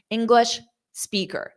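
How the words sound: A short pause separates the two words. The speaker calls it right. "you want a strategic pause"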